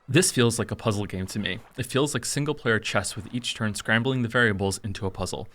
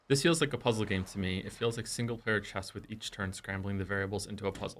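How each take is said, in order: First: It is read in his YouTube voice. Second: It is read in his normal voice.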